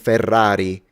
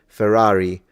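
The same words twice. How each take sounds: First: The R sound is rolled. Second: The R sound is not rolled. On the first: "instead of saying Ferrari" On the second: "without rolling your R's"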